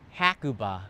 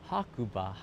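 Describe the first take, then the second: First: The name is said with English-style pronunciation. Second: The name is said with Japanese-style pronunciation. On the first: The speaker calls it wrong. "The navigation system in English, they call it Hakuba" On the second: The speaker calls it right. "It's Hakuba"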